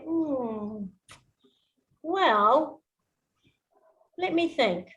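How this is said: It is said slowly with pauses between words.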